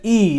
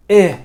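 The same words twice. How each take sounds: First: E said as a long, clear ee; E as in bee. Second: Eh as a short, lax i; vowel as in igloo. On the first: Tutor showing the kasra, long ee sound. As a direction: hold E like the vowel of bee. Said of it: "like in the word bee". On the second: Tutor showing the wrong kasra, short lax vowel. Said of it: "like in the word igloo". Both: Shown as a demonstration.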